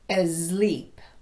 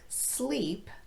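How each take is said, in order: First: It begins with an added vowel before s. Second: It begins with a plain voiceless s sound. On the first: The speaker calls it wrong. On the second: The speaker calls it right.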